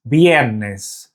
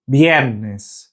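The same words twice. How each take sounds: The two takes are said the same way.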